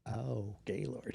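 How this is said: It is said in a sexy, seductive tone.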